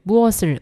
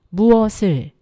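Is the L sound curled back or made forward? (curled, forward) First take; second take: curled; forward. First: The L is curled back like English R. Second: The L is made with the tongue forward. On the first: The speaker calls it wrong. "우리가 R처럼 뭐 그것을, 무엇을, 뭘 이런 게 잘 이런 게 아니라" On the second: The speaker calls it right. "혀 끝을 앞니 뒤쪽으로 보내서 단단하게"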